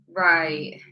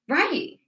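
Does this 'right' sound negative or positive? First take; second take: negative; positive. First: It sounds reluctant and negative. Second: It sounds upbeat and positive. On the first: The speaker agrees reluctantly. "then it's a bit more of a negative yes" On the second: The speaker gladly agrees. "then that's definitely quite positive"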